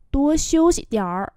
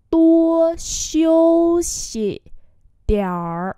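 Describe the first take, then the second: First: Said in the usual way. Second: Very slow, high and loud opening syllables; slow, projected pronunciation model; slow demonstration. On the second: Shown as a demonstration. Teacher repeats slowly for learners.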